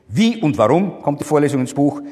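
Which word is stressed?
Wie. The stress is on the word Wie. The question is about the manner.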